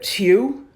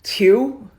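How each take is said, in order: No difference in how they are said.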